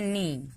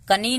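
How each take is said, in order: First: The word begins with an n sound. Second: The word begins with a k sound. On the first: The speaker calls it right. "इसको पढ़ते हैं नी" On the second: The speaker calls it wrong. "कनी नहीं पढ़ते हैं"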